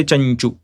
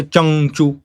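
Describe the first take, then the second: First: Chanchu with ny before chu; Chanchu, nasal blending into ch; natural palatal anuswara. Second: Changchu with ng before chu; Changchu, ng instead of ny; wrong velar nasal. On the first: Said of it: "We naturally say". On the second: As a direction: say Changchu with back-of-mouth ng. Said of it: "We don't say". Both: Shown as a demonstration.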